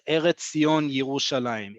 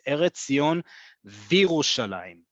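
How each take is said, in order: First: The last word begins with a 'ye' sound. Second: The last word begins with a 'vi' sound. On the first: The speaker calls it wrong. "It is not" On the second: The speaker calls it right. "It is"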